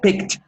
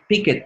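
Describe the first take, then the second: First: The K and T join in one syllable. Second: An extra vowel splits the ending into two syllables. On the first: The speaker calls it right. "You have to uh, pronounce K T at the same time" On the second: The speaker calls it wrong. "por ahí oí a alguien decir y picket. No, no, no"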